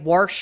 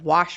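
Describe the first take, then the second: First: An extra R sound is added: warsh. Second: It is said without any R sound.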